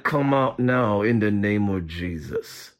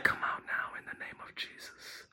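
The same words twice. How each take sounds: First: Very low, slow monotone through still lips; concealed, deep ventriloquist's command. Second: Very soft, voiceless whisper; hushed, secret deliverance whisper; whispered rebuke. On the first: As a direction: talk without moving your lips. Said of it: "I don't want my intercessor who's in training to read my lips". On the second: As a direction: whisper the command under your breath. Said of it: "I start talking like that". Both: Shown as a demonstration.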